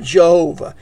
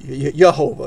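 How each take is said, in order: First: The name begins with an English J sound. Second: The name begins with a Hebrew Y sound. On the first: This is how an English speaker says it. "If you're an English speaker" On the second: This is how a Hebrew speaker says it. "If you're a Hebrew"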